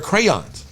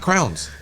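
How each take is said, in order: First: The word sounds like 'crayons'. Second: The word sounds like 'crowns'. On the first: This is how the speaker pronounces it. The speaker calls it right. "They're crayons" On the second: This is how someone else pronounces it. The speaker calls it wrong. "she pronounced it was crowns"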